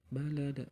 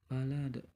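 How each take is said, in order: Both takes have the same delivery.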